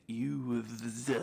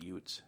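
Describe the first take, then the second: First: "youths" drawn out very slowly; mock-careful courtroom correction of "youths", long and slow; overcorrected pronunciation. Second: "youths" said as "yoots", with a t; movie mispronunciation. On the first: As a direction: stretch "youths" with a laboured th at the end. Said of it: "I'm so sorry, Your Honor. I meant". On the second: Shown as a demonstration. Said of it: "when I try to say youths".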